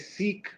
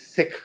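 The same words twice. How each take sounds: First: It uses the Americanized pronunciation of the word. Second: It uses the original pronunciation of the word. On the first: It is easier for American listeners to understand. The speaker calls it wrong. "I have preferred to say Sikh when talking about Sikhism to Americans because that's easier to understand" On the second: It is how members of the religion say it. The speaker calls it right. "the right way to say it is Sikh"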